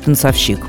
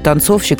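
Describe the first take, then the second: First: The stress falls off the second syllable. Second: The stress falls on the second syllable. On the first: The speaker calls it wrong. "а не танцовщик" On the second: The speaker calls it right. "с ударением На «о»"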